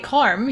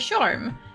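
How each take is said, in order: First: The word begins with a hard K sound. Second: The word begins with a ch sound. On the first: The speaker calls it wrong. "you don't say carm" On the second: The speaker calls it right. "you say charm"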